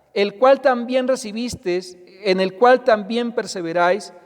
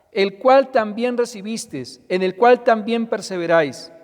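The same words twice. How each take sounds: Both takes have the same delivery.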